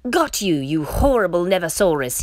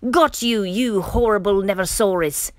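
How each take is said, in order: First: A touch of storybook growl; understated growled threat; mild growl. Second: Raised-voice storybook bellow; hearty bellow, easing off after the first words. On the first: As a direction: pounce on your prey with a light growl. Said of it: "he growled". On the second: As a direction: pounce on it with a loud, high start. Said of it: "they bellowed". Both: A narrator's reading.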